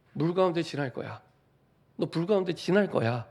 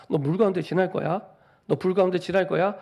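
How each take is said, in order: First: Said in the usual way. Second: God's voice warning of fire and water, proclaimed louder; louder proclamation. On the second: Acted. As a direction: declare it louder, as God announcing. God's words repeated louder.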